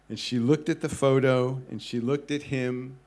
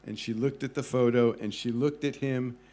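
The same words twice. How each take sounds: The two takes are said the same way.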